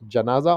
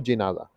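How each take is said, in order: First: The first vowel is an open 'a' sound. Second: The first vowel is a short 'i' sound. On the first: The speaker calls it wrong. "janaza with the fatha" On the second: The speaker calls it right. "jinaza with the kasra"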